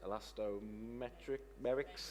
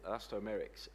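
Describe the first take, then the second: First: A 't' sound is inserted in the middle. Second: No 't' sound is in the middle. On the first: The speaker calls it wrong. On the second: The speaker calls it right.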